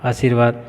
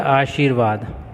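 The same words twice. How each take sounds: First: आशीर्वाद with s for sh; common mispronunciation. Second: आशीर्वाद with sh and long ee; correct pronunciation. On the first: Teacher shows how people say it, आशीर्वाद as "aasirvaad". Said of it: "लोग इसका उच्चारण करते हैं". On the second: Teacher shows the pure word, slow आशीर्वाद with sh. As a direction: draw out आशीर्वाद as "aa-sheer-vaad". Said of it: "जबकि अशुद्ध ही है". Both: Shown as a demonstration.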